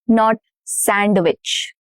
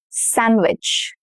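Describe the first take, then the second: First: The d sound is pronounced. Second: The d sound is silent. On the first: The speaker calls it wrong. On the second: The speaker calls it right. "No d"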